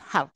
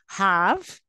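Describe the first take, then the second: First: The word has a short, weak vowel. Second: The word has a full, long vowel. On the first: The word is unstressed. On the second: The word is stressed.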